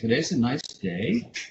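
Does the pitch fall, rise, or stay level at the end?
rise. The pitch rises at the end. "up inflection is when you say ... This is what's called up talk"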